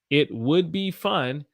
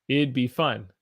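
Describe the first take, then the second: First: The words it and would are said in full. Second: It and would merge into one contracted syllable pair. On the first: "It would be fun if you came with me" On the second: "If I changed it to I T apostrophe D"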